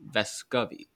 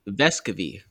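First: The stress is on the second syllable, co. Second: The stress is on the first syllable, Ves. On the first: The speaker calls it wrong. "It's not on the C-O like I originally thought" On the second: The speaker calls it right. "Emphasis on Ves"

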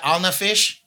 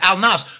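First: The word ends with an extra syllable, "fish". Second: The word ends in a short "fs" cluster. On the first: The speaker calls it wrong. "you got Al-Nafish? That's what they call it" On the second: This is the actual title of the song. The speaker calls it right. "But it's Al-Nafs"

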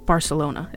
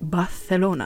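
First: The c is said with a plain s sound. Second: The c is said with a lisped th sound. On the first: "In Catalan, it's Barcelona" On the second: "they speak with, I'm going to call it a lisp"

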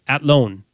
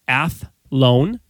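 First: The 'h' is dropped, giving a plain 't'. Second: The 'th' is said with the 'h' sound. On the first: This is how the locals say it. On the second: This is the usual outside pronunciation.

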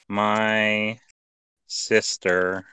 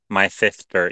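First: The s sounds are said as a plain s. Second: The s sounds are said as a lisped th. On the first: "Regular goes here" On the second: "it just replaces S's with TH's"

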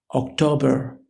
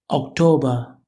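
First: It is said in an American accent. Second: It is said in a British accent.

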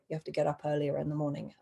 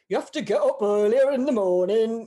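First: It is said in a natural, lightly modulated voice. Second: It is said in a put-on character voice. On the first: The speaker calls it right. "I did not do voices. I just kind of modulated pace and tone a bit" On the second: The speaker calls it wrong. "I would not do like"

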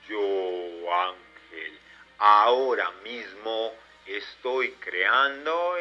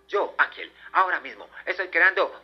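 First: It is said slowly. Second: It is said very fast.

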